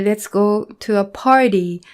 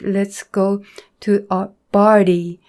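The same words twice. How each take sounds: First: Party begins with a clear P sound. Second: Party begins with a B-like sound. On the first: The speaker calls it right. "when they want to say" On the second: The speaker calls it wrong. "it will sound like"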